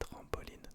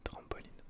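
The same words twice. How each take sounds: No difference in how they are said.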